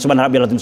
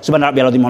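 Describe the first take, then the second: The two takes are said the same way.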